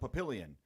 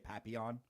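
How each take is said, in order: First: The name is said the way locals say it. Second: The name is said the way an outsider would. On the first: This is how residents say it. "how they pronounce it" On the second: This is how a visitor would say it. "I would say Papillon"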